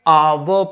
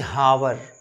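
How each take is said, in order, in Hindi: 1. शब्द की शुरुआत स्वर से होती है, इसमें h नहीं है। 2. शब्द की शुरुआत h की ध्वनि से होती है। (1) "आवर पढ़ते हैं" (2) "ना कि हावर"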